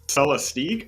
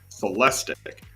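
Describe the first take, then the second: First: The ending does not rhyme with lyric. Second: The ending rhymes with lyric. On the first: The speaker calls it wrong. "everybody was kind of pronouncing the Celestique" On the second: The speaker calls it right. "they were told that it was Celestic"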